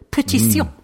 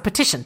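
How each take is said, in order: First: It is said with a mock French accent. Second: It is said with a plain English accent.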